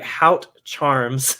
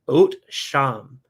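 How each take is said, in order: First: It starts with an h and ends in 'charms'. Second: It starts with 'oat' and ends in 'sham'. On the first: "it's spelled like Hout Charms" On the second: "I think it's pronounced Oat Sham"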